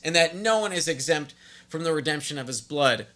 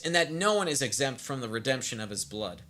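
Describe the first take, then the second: First: It is read in an outraged, indignant tone. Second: It is read in a plain, neutral tone.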